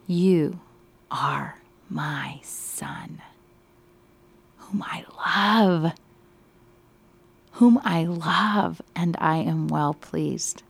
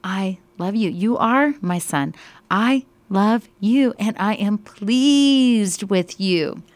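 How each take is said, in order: First: Hushed awe. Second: Louder, slowing down on the last words; fervent proclamation. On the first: Teacher voicing God the Father to the study group, slow and hushed. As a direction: whisper God's words in awe, slowly drawn out. Teacher voices God's words, awed. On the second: Teacher re-voicing the Father's words to Sabrina, fervent, loud and slowing. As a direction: proclaim it with full heart, stretching the ending. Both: Acted.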